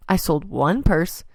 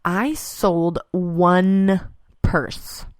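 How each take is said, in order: First: Said in the usual way. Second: Drawn-out, dropping to a breath on purse; slow deadpan. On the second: Real, not acted. Telling listeners about a bad trade show, slow and deadpan. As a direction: let it land slowly, then let purse fall away. Retelling a disappointing sale.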